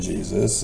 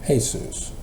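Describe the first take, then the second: First: The name begins with a J sound. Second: The name begins with an H sound. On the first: "It wasn't Jesus" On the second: "Spanish turns it into H"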